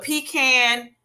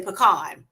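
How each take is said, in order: First: "pecan" said slowly as pee-CAN; pronounced pee-CAN. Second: "pecan" said as puh-KAHN; pronounced puh-KAHN. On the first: Giving her own Southern way, pee-CAN. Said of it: "I say pecan". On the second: Showing how some people say it, puh-KAHN. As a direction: say "pecan" with a weak first syllable, then "kahn". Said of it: "some people say pecan". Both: Shown as a demonstration.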